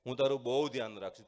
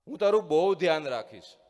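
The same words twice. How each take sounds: First: Echo. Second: Loud fond call, stress on તારું. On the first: The mountain echoing the father's promise, faint echo. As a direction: let it come back like a distant echo. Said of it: "પડઘો આવ્યો". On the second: Father calling into the ravine to show his son, loud call. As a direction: call out a promise across the gorge. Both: A narrator's reading.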